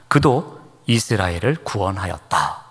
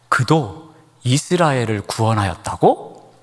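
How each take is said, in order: First: It is read in a plain, flat statement tone. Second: It is said as a surprised, disbelieving question. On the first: He simply saved Israel, stated as fact. The speaker calls it wrong. "제가 평범하게 읽었습니다" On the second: It is unbelievable that such a man saved Israel. The speaker calls it right. "다른 뉘앙스로 한번 읽어보겠습니다"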